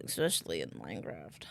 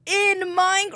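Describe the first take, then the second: First: Low, quiet growl; deep voice. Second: Sudden high, loud voice; high loud squeal. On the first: Repeats joke in other voice. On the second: Jokey punchline tag. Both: Pretend.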